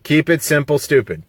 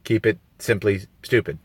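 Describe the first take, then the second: First: Said in the usual way. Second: "simply stupid" as a playful twist; simply for simple. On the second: Shown as a demonstration. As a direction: say "simply" in place of "simple", softer. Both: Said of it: "Or, you know".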